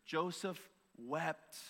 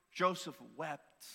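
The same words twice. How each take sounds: First: Joseph wept said very slowly and softly; slower, softer. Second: Slow, weighty reading of Joseph wept. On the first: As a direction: let Joseph wept fall quiet and very slow. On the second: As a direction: read Joseph wept slowly, letting it land. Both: Shown as a demonstration. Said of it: "just those two words".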